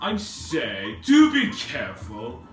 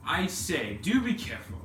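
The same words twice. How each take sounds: First: It is said in a put-on posh accent. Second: It is said in a plain voice.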